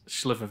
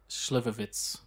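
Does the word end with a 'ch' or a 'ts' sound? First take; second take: ch; ts. First: The word ends with a 'ch' sound. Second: The word ends with a 'ts' sound. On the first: The speaker calls it wrong. "It's not a ch sound at the end" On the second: The speaker calls it right. "It's a TS"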